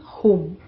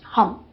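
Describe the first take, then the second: First: The word sounds like home, with a long vowel. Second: The word sounds like hum, with a short vowel. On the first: This is how the speaker's own group says it. "And we are saying home" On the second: This is how people from another culture say it. "So a lot to do with cultural differences in terms of pronunciation, hum"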